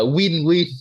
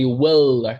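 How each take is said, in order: First: The word ends without an L sound. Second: The word ends with a clear L sound. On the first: The speaker calls it wrong. "do you remember how you pronounced this word last time?" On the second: The speaker calls it right. "it should be will. Ending sound L"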